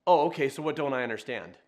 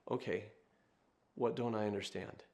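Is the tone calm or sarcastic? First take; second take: sarcastic; calm. First: It is asked in a sarcastic, challenging tone. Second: It is asked in a calm, humble tone.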